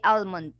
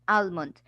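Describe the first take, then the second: No difference in how they are said.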